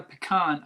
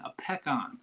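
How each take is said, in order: First: "pecan" as puh-KAHN; rejected pronunciation. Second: "pecan" as PECK-ahn; local pronunciation. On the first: Showing viewers how not to say it, "pecan" as puh-KAHN. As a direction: say "pecan" with a weak first syllable. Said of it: "is pronounced a peck, a, not". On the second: Showing viewers the correct word, "pecan" as PECK-ahn. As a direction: open "pecan" with a clear "peck". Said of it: "is pronounced a peck". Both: Shown as a demonstration.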